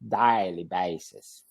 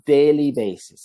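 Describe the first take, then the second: First: It is said with a Texan-sounding vowel. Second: It is said with a standard-sounding vowel. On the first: The speaker calls it wrong. "that's how a Texan would say" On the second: The speaker calls it right. "But it would be daily basis"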